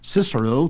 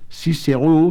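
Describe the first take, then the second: First: It uses the English pronunciation. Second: It uses the French pronunciation. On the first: "to the English speaker" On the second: "to the Frenchman"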